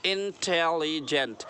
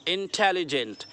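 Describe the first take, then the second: First: इंटेलिजेंट drawn out slowly in four separate parts; split into syllables. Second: Said in the usual way. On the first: Shown as a demonstration. Teacher showing the four parts of the word, इंटेलिजेंट slowly syllable by syllable. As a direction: say इंटेलिजेंट part by part, in-tel-li-gent. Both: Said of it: "चार part हो गए इसके".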